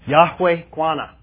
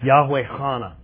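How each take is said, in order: First: The second word starts with a plain consonant. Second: The second word starts with a guttural consonant. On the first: The speaker calls it wrong. "I'm probably not pronouncing that quite right" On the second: The speaker calls it right. "You have a very guttural sound in Hebrew"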